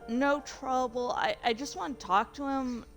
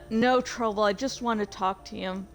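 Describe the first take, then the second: First: It is said in a more professional way. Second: It is said in a casual, offhand way.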